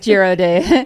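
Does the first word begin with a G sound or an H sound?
G sound. The first word starts with a G sound. "You want to Americanize it?"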